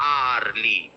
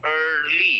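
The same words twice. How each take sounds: First: "early" mispronounced as ar-lee; an open ar to start "early"; wrong vowel. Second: "early" as er-lee; correct er sound. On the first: Teacher says what it is not, wrong "arly". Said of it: "it is not early". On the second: Teacher corrects the mistake, correct "early" with er. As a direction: start "early" with a long central er, not ar. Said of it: "The er sound". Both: Shown as a demonstration.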